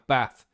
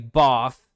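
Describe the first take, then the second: First: The vowel is short, with no R sound. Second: The vowel is long, like 'Barth'.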